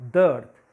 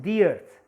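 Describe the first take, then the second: First: "the" with a short schwa, running into earth; "the" as thuh. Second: "the" with a long ee, as in "see"; "the" as thee. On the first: Teacher shows students the form not used, "the" said "thuh". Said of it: "Why I am not saying". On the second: Teacher asks students why it is so, "the" said "thee". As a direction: say "the" as "thee" before earth. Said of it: "Why I am saying the earth". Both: Shown as a demonstration.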